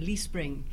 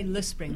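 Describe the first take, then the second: First: The first word has a long 'ee' vowel. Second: The first word has a short, weak vowel. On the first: This is how locals in the northeast say the name. "they say Lee Spring" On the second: This is not how locals say the name. "in the northeast they don't say Le Spring"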